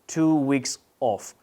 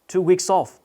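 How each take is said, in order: First: The words are said separately without linking. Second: The words are linked together smoothly. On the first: The speaker calls it wrong. "you shouldn't say" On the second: The speaker calls it right. "You should say"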